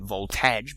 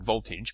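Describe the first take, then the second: First: The word is said as spelled, with volt-age. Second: The word is said the usual, reduced way. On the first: "I'm saying it voltage because that's how it's spelled" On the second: "I mean voltage"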